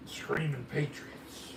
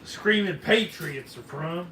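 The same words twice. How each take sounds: First: Slow, soft, savouring each word; drawn-out name. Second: Said in the usual way. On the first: Pretend. Host savouring the firework's name, slow and soft. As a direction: stretch the name out lovingly.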